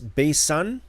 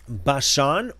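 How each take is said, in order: First: The middle consonant is an 's' sound. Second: The middle consonant is an 'sh' sound. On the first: This is the Septuagint form of the name. "it's Basan, B A S A N, as opposed to B A S H A N" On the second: This is the Hebrew form of the name. "B A S H A N"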